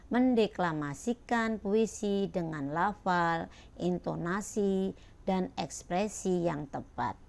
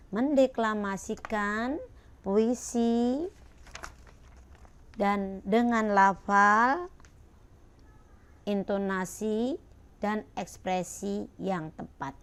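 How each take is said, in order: First: Said in the usual way. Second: Loud, slow title with rising phrase ends; title read out. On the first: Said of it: "Ya, kalian baca nih". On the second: Shown as a demonstration. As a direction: announce each item slowly and loudly. Reading the lesson title aloud. (membaca judul dengan lantang dan pelan)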